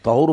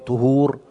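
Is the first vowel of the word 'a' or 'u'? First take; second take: a; u. First: The first vowel is an open 'a' sound. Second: The first vowel is a rounded 'u' sound. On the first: It means water that purifies. "طهور بالفتح" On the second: It means the act of purification. "الطهور بالضم"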